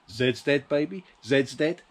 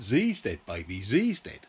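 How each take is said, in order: First: The letter name is said as zed. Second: The letter name is said as zee. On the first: The speaker calls it right. "the famous lines from that film" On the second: The speaker calls it wrong. "it wouldn't sound the same if somebody had said"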